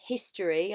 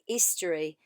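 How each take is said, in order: First: The word begins with an h sound. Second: The word begins without an h sound. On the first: "Instead of saying history" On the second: "I want you to drop the H"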